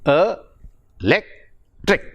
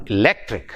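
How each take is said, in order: First: "A, electric" as three separate syllables, e, lec, tric. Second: "electric" joined up, weight on "lec"; e-LEC-tric in one piece, for "electric"; stress on second syllable. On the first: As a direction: count out "electric" with pauses between syllables. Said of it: "There are s-, three syllables there". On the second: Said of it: "it is on the second syllable". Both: Shown as a demonstration.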